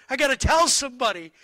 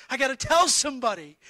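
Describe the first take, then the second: The two takes are said the same way.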